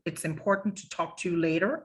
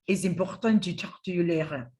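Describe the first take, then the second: First: It is said with an English accent, sound forward. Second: It is said with a French accent, sound back.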